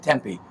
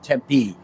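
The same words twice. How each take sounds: First: The stress is on the first syllable. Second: The stress is on the last syllable. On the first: This is how people from out east say it. "Out east where I'm from, we all say Tempe" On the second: This is how locals say it. "you and everybody here says it Tempe ... you're supposed to put the pronunciation on the last syllable"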